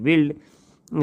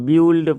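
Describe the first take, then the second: First: The vowel is a short 'ih', as in 'bit'. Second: The vowel sounds like 'yoo', as in 'cute'. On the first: The speaker calls it right. "यू जो है वो silent हो गया" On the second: The speaker calls it wrong. "इसको ब्यूल्ड पढ़ देते हैं। नहीं"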